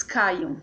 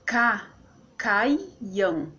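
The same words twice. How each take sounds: First: Said in the usual way. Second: "Ca, caiam" as separate beats, cai then am; split into syllables. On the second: Shown as a demonstration. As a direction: pause inside caiam, cai-am. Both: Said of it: "Por exemplo, aqui, ó".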